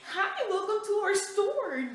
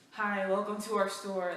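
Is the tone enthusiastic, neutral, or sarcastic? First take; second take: enthusiastic; sarcastic. First: It is said with exaggerated, over-the-top enthusiasm. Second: It is said in a sarcastic, grudging tone. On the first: The greeter is trying far too hard. "go over the top like" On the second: The greeter resents having to serve. "don't be sarcastic at me"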